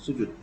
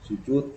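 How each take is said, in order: First: Part of the u vowel's sound is dropped. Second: The u vowel is given its full sound. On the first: This is the Dayak form. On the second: This is the original Arabic form.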